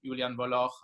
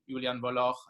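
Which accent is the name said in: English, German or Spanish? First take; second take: German; German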